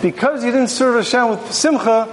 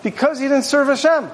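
First: "simcha" set apart as the key word; stress on simcha. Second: Higher pitch, falling to a close on "Hashem"; verse ending at Hashem. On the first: Teacher showing the full verse, weight on "simcha". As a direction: carry the sentence on to land on "simcha". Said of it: "But instead, it's". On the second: Teacher showing a shortened verse, closed off after "Hashem". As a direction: finish the sentence firmly on "Hashem". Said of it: "If that's where the pasuk would end". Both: Shown as a demonstration.

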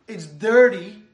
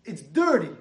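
First: Much louder, stressing "dirty". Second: Said in the usual way. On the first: Acted. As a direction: exclaim it in disgust.

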